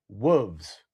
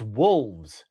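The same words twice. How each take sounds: First: "wolves" without the L, as "woovs"; mispronounced wolves. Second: "wolves" with a clear, drawn-out L; correct wolves. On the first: Retold or imitated. Co-host quoting the host's slip, "wolves" said L-less. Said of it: "And then you said, "Wolves". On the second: Shown as a demonstration. Co-host correcting the host, "wolves" with its L sounded. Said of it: "There's an L. It's wolves".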